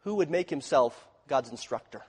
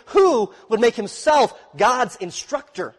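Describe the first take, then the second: First: Said in the usual way. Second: Slow, louder and higher in disbelief; incredulous. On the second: Shown as a demonstration. Preacher showing the congregation the question's incredulity, slow and raised. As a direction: ask it as if the idea were absurd. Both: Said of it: "You see the incredulity of that statement?".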